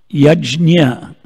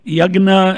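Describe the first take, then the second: First: The word is said the Sanskrit way. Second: The word is said the Hindi way. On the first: "yajna is Sanskritam" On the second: "I think yagna is uh, Hindi"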